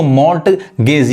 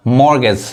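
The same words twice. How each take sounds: First: मॉर्टगेज slowly split, with the t sounded; slow "mort-gez" for मॉर्टगेज; wrong pronunciation. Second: मॉर्गेज said "mor-gez", no t; silent T. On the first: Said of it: "ये टी नहीं पढ़ाता है". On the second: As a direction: go from r straight to g in मॉर्गेज. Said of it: "मॉर्टगेज कहेंगे गलत पढ़ाएगा". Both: Shown as a demonstration.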